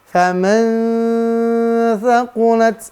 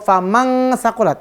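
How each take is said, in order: First: The n is hidden and nasalized into the next sound. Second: The n is said as a full ng sound. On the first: The speaker calls it right. "Samarkan. ... lalu masuk didengungkan" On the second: The speaker calls it wrong. "Bukan eng"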